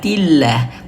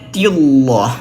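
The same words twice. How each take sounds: First: The L sound is light and thin. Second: The L sound is heavy and thick. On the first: The speaker calls it right. "Maka di sini dibacanya tipis" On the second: The speaker calls it wrong. "bukan tillah"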